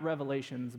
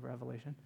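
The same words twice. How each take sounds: First: Revelations with the final s, named as the common mistake; wrong plural. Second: Revelation with no final s; correct singular. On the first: Pastor correcting a common slip, naming the wrong plural Revelations. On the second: Pastor correcting a common slip, giving the right singular Revelation. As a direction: say Revelation, ending cleanly without an s. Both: Shown as a demonstration. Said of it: "It's not Revelations, by the way".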